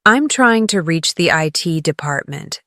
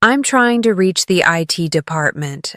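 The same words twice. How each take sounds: The two takes are said the same way.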